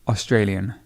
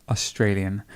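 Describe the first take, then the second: No difference in how they are said.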